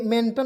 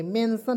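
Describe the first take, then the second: First: मेंटन with a hard T in the last syllable; wrong reading. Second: मेंशन with a soft sibilant starting the last syllable; correct reading. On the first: Teacher warning learners off a misreading, मेंटन with T. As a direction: read the ending as "tan" in मेंटन. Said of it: "मेंटन नहीं पढ़ेंगे". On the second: Teacher showing learners the right reading, मेंशन without T. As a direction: read the ending as "san" in मेंशन, no T. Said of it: "मेंशन पढ़ेंगे". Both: Shown as a demonstration.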